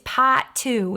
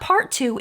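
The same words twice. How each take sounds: First: It is said in a Boston accent. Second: It is said in a plain, general accent. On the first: The speaker calls it right. "in the Boston accent" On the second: The speaker calls it wrong. "It's not part two"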